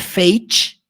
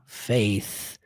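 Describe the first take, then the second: First: The word ends with a plain T sound. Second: The word ends with a soft TH sound. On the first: The speaker calls it wrong. "Não é fate" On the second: The speaker calls it right. "Você vai falar faith"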